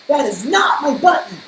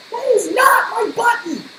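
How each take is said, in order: First: Loud high wail of protest. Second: Loud, high frustrated shout. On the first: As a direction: wail it out, fed up. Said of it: "wailed Toad". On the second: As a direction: yell it in exasperation. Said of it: "shouted Toad". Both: Acted.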